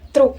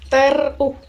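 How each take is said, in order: First: The t and r are joined with no vowel. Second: A short e vowel separates t and r. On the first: The speaker calls it right. "diucapkan sebagai satu kesatuan cepat T R" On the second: The speaker calls it wrong. "bukan teruk"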